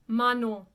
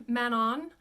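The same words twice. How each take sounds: First: Manon as "ma-noh", nasal ending without n; louder Manon with nasal final vowel; French pronunciation of Manon. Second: Manon as "man-on", sounded n; anglicized Manon. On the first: Teacher corrects the title for students, French pronunciation. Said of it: "but it's Manon". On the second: Teacher reads it as it looks, anglicized. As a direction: say Manon just as an English reader would. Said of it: "looks like Manon". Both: Shown as a demonstration.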